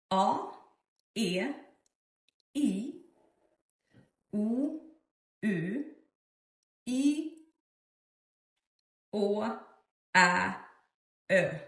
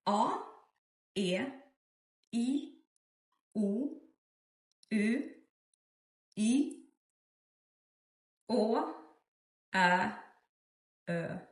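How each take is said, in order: Both takes have the same delivery.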